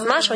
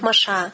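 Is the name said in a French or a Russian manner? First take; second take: Russian; French. First: The name is said in a Russian manner. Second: The name is said in a French manner. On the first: This is how it is said at home. "У нас Маша" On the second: This is how the Frenchified émigrés say it. "у них Маша... на французский манер"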